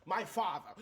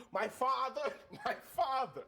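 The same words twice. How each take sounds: First: Louder, higher, each word weighted; dramatic answer. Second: Higher still and louder, hit father; building drama. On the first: Player answering the party about his father, building drama. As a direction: declare it with mounting drama. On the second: Player repeating his answer to the party, louder drama. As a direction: push the repeat harder, half laughing. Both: Acted.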